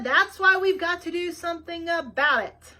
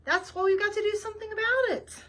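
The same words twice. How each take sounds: First: Louder, raised so she hears through earmuffs; repeating to Nina wearing earmuffs, raised voice. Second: Said in the usual way. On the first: A narrator's reading. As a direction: say it again, louder, over the earmuffs. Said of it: "I heard your loud grating voice". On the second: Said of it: "I said".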